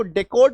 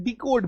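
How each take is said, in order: First: डेकोड opened with "day", not "dee". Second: डिकोड opened with "dee", not "day". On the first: Teacher offering students an alternative pronunciation, "day" at the start of डेकोड. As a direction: say the first syllable of डेकोड as डे. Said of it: "इसको डेकोड भी बोल सकते हैं". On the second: Teacher showing students the other accepted pronunciation, "dee" at the start of डिकोड. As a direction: say the first syllable of डिकोड as डी. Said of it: "डिकोड भी बोल सकते हैं". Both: Shown as a demonstration.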